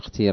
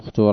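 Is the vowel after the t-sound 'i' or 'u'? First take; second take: i; u. First: The vowel after the t-sound is i. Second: The vowel after the t-sound is u. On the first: "والكسر نحو" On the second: "من جواز الضم نحو"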